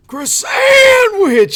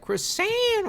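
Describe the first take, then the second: First: A loud high mock New York shout; raspy New Yorker yell. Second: Croissant drawn out very high and slow, French style; croissant said much higher and slow like a French chef; fancy French pronunciation. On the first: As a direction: yell it much higher and louder like a New Yorker smoker. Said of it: "raspy New Yorker smoker voice". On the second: Retold or imitated. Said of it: "here we say it as".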